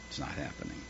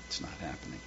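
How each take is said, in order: First: Whispered, with a rise on not; hushed, stressed not; whispered lament. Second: A hushed whisper, fading away; despairing whisper; whispered lament. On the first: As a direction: breathe it out, pitched up. Repeated, whispered again. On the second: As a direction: let it die to a whisper. Repeated, now whispered. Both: Acted.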